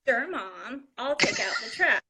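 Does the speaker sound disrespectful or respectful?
disrespectful. The tone is sassy and disrespectful. The child resents being asked. The speaker calls it wrong. "a disrespectful face"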